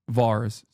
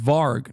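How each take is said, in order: First: The name ends with an s sound. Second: The name ends with a g sound. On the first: The speaker calls it wrong. "not Vars? ... I'm saying it wrong" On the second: The speaker calls it right. "Is Varg"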